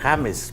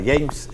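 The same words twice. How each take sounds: First: The name is pronounced the Spanish way. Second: The name is pronounced the English way. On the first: This is how it is read as written. The speaker calls it right. "porque así se escribe" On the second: This is how people in the United States say it. The speaker calls it wrong. "él no se llamaba James"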